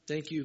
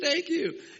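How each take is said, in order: First: It is said with doubtful hesitation. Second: It is said with joyful excitement.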